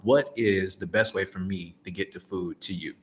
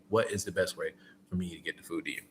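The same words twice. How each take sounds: First: Said in the usual way. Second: "What is the best way for me to get the food to you?" said quick and soft; quick smooth ask. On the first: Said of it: "But I'm not saying it like that". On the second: Shown as a demonstration. Driver showing how to ask the customer, quick and soft. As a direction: rattle the question off fast and easy. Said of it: "And just run 'em like that".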